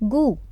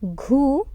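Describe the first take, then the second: First: The syllable is said with reduced stress. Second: The syllable is said with full stress. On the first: The speaker calls it right. "Syllable two will have a reduced stress" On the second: The speaker calls it wrong. "Not ghoo"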